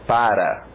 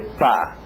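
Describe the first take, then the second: First: The word is said fully with two syllables. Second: The word is reduced to one syllable, pá. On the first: "Você tem que começar aprendendo a palavra para" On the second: "ou até pá"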